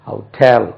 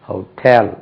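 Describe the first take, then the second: No difference in how they are said.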